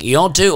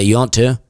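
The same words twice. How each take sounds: First: It is said with heavy, exaggerated emphasis. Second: It is said plainly, without extra emphasis. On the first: The everyday way is heightened for performance. "we're really putting emphasis on it" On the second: This is how it is said in everyday speech. "when we're regular, we just say"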